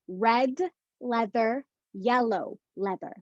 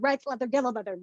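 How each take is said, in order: First: The phrase is said at a slow, careful pace. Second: The phrase is said at a fast, rushed pace.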